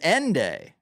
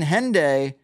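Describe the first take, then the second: First: The word starts without any H sound. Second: The word starts with an audible H sound.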